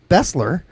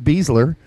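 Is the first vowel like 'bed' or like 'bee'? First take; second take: bed; bee. First: The first vowel sounds like the vowel in 'bed'. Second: The first vowel sounds like the vowel in 'bee'. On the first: This is the name's proper pronunciation. "his name is correctly pronounced Bessler" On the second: This is a playful nickname earned by performance. "I will go ahead and pronounce it Beasler"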